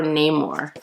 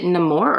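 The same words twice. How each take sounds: First: Namor said as "NAY-mor"; long-A pronunciation. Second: Namor said as "nuh-MOR"; first-syllable schwa. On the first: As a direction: say Namor with "nay" as the first syllable. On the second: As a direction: say Namor with a short "nuh" at the start. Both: Shown as a demonstration. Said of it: "Is it Namor or Namor?".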